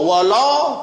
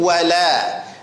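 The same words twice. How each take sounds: First: The 'l' sound is heavy and thick. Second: The 'l' sound is light and thin. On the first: The speaker calls it wrong. "wala tidak" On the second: The speaker calls it right. "tapi wala. Lam tipis"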